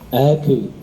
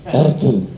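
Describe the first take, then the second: First: The opening vowel is plain, without extra air. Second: The opening vowel is breathy, with flowing air. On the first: The speaker calls it right. "Harusnya A biasa" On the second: The speaker calls it wrong. "Itu Bang [name] salah sifat loh"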